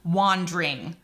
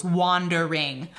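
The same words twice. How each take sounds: First: "wandering" squeezed to two syllables, wan-dring. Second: "wandering" slowly in three parts, wan-der-ing; three syllables. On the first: Teacher showing Shakespeare's shortened form, "wandering" as wan-dring. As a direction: drop the middle vowel of "wandering": wan-dring. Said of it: "he makes it into wandering". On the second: Teacher counting syllables, "wandering" drawn out as wan-der-ing. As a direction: sound out every syllable of "wandering". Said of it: "that would be three syllables". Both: Shown as a demonstration.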